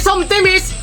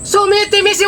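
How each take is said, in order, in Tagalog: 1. Tatlo ang pantig ng bigkas nito. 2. Apat ang pantig ng bigkas nito. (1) "hindi sometimis" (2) "Sumitimis yung pagbasa niyan"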